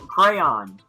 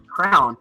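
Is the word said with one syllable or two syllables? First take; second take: two syllables; one syllable. First: It is said as two syllables, 'cray-on'. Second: It is said as one syllable, like 'crown'. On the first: The speaker calls it right. "No, crayon" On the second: The speaker calls it wrong.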